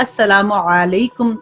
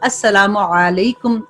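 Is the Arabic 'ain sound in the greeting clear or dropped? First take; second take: clear; clear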